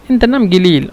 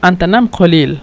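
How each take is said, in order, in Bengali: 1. এতে সৌদি আঞ্চলিক ভাষার উচ্চারণ আছে, একটি g ধ্বনি সহ। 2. এতে প্রমিত আরবির উচ্চারণ আছে, একটি q ধ্বনি সহ। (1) "সৌদির আঞ্চলিক ভাষা" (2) "এটা হলো শুদ্ধ ভাষা"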